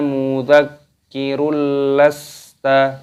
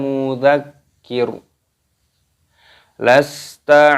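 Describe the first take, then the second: First: The words run together with a linking vowel. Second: The voice stops after the first word before continuing. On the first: "apabila ingin diwasolkan, wasol itu apa? Maksudnya digandeng" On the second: "Ro-nya dimatikan ketika tanda waqaf ataupun berhenti"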